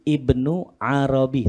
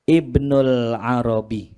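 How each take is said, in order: First: "Ibnu Arabi" said plainly as Ibnu, with no l before Arabi; "Ibnu Arabi": Ibnu ends on an open u, then Arabi; Ibnu Arabi, no alif lam. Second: "Ibnul Arabi" slowly, with a clear l joined to Arabi; "Ibnul Arabi": say Ibnul with the l sounded, slowly; Ibnul Arabi, with alif lam. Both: Shown as a demonstration. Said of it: "kalau sufi itu nggak pakai alif lam".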